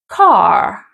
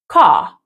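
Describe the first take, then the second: First: The final R is clearly pronounced. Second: The final R is not pronounced. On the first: "they do pronounce the R's" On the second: "we don't pronounce the R after a vowel"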